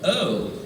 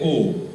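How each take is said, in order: First: The vowel starts like 'uh' then glides to 'oo'. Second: The vowel is said in a Sri Lankan accent. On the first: "It's not O and oo, it's a and oo" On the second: "In Sri Lanka we say O"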